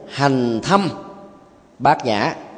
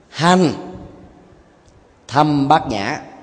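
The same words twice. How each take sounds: First: The pause falls after 'hành thâm'. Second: The pause falls after 'hành'.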